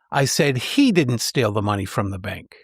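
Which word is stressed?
he. The stress falls on the word he. Someone else might have stolen the money. "The third suggests someone else might have stolen the money"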